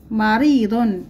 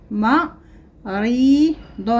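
First: Said in the usual way. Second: مريض stretched very slowly; مريض drawn out. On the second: Shown as a demonstration. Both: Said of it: "لدينا الكلمات نقرأها".

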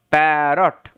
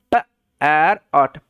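First: Said in the usual way. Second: "প, আর অট" as short p, gap, ar, ot; sounding out. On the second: Shown as a demonstration. Teacher modelling parrot for learners, sounded out in parts. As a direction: split parrot into separate low-pitched sounds. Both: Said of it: "সাউন্ডটা হচ্ছে প".

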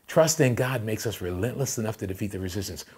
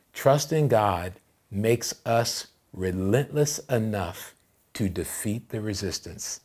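First: Said in the usual way. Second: "relentless enough" drawn out, with pauses between phrases; slow, deliberate. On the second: Real, not acted. Pastor giving the church the key point, slow and deliberate. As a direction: spell out "Trust in God" slowly, phrase by phrase. Preacher delivers key line slowly.

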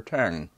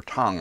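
First: "Tang" with the flat a of "hang"; alternative pronunciation. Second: "Tang" with a broad ah, like "Tahng"; alternative pronunciation. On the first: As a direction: say "Tang" to rhyme with "sang". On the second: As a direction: say "Tang" with the open vowel of "father". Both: Real, not acted. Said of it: "I'm not sure how he pronounced it".

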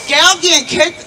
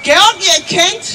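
The two takes are said the same way.

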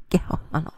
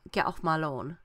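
First: Breathy laughing repeat. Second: Mock dismissal. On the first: Real, not acted. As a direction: get off my lawn repeated in a whisper through a laugh. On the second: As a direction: get off my lawn in a lightly voiced, fed-up mum. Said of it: "She's like".

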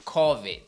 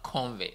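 First: "covid" said loudly as CAW-vid, no n; correct pronunciation. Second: "covid" with an added n, as CON-vid; wrong pronunciation. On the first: Host giving viewers the right name, louder CAW-vid. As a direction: land "covid" firmly with open aw. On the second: Host correcting himself for viewers, mispronouncing it CON-vid. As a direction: show the mistake, "covid" as "convid". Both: Shown as a demonstration. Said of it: "It's not covid".

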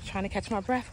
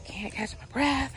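First: Winded after a run; out of breath. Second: Slow, winded after running; out of breath. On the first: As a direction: speak between breaths. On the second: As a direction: gasp between words. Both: Real, not acted.

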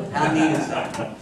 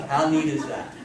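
The two takes are said the same way.

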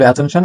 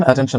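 First: অ্যাটেনশন opened with a full "ae", "AE-ten-shan"; full first vowel as in cat on অ্যাটেনশন; mistaken pronunciation. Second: অ্যাটেনশন opened with a light "uh", "uh-TEN-shun"; correct pronunciation. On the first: Teacher quoting what we say, অ্যাটেনশন with strong ae. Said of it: "আমরা বলি". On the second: Teacher correcting learners, অ্যাটেনশন as uh-ten-shun. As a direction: reduce the first vowel of অ্যাটেনশন. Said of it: "অ্যাটেনশন না". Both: Shown as a demonstration.

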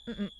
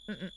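Both takes have the same delivery.

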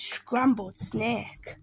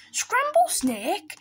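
First: Said in the usual way. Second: High, drawn-out shocked question; slow, horrified snake, pitch rising; alarmed echo. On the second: Acted. Snake hears it is the favourite food, alarmed.

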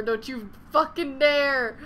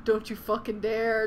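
First: Louder, slow, word-by-word threat; louder, slower second warning. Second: Said in the usual way. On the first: Real, not acted. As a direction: growl it at the game. Pleading with the game.

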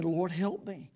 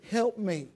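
First: Said in the usual way. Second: A higher pleading cry for help; mother crying to the Lord, higher and pleading; desperate cry. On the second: Shown as a demonstration. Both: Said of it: "In desperation, she cries out".

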